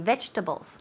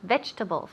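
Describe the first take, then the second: First: The middle syllable is dropped, giving three syllables. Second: The same.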